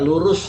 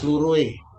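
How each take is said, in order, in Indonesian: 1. Kata ini berakhir dengan bunyi 's' yang jelas. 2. Kata ini berakhir dengan bunyi 'ih'. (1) "lurus begitu us itu" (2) "semua diganti menjadi uih"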